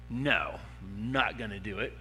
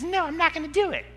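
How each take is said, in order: First: It is said in a normal adult voice. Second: It is said in a squeaky childlike voice. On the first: A grown person refuses to obey. "you're a mature voice and you're a mature person" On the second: The refusal sounds silly and childish. "the squeaky little kid voice that says"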